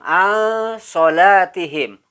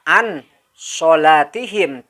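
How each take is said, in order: First: The n sound is hidden and nasalized. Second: The n sound is pronounced clearly. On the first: The speaker calls it right. "disamarkan nun matinya" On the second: The speaker calls it wrong. "Jadi tidak dibaca an sholatihim"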